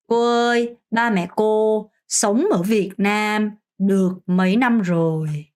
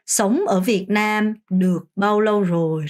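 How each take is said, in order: First: Slow, clear Vietnamese question; slow model sentence. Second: Slow, careful Vietnamese question; slow model sentence. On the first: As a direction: spell it out slowly as a model. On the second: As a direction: model it slowly for the class. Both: Shown as a demonstration. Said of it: "라고 하면 됩니다". (천천히 또박또박 시범 문장)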